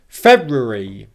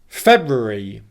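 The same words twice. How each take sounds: Both takes have the same delivery.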